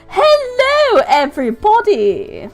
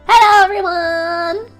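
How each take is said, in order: First: It is said in a posh voice. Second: It is said in a plain voice.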